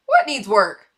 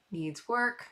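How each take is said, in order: First: Loud, incredulous challenge; playful outraged question; mock indignation. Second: Said in the usual way. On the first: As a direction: throw it back as if insulted. Objects to the comment just read.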